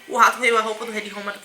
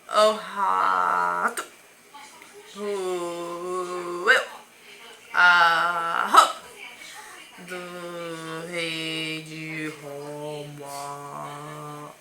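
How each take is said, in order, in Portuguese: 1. A frase é falada rápido. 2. A frase é falada devagar. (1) "Nós podemos falar rápido" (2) "Ou devagarzinho"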